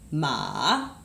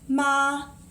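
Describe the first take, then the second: First: The pitch dips low and stays low. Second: The pitch stays high and level. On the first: "Then we have third tone" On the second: "first tone"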